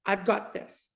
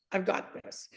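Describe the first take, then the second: First: Said in the usual way. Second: "I've got this" breathed out unvoiced and much softer; hushed. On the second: Shown as a demonstration. Repeating the Lord's exact words to listeners, hushed. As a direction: let "I've got this" fall to a hushed whisper. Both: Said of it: "Literally those words".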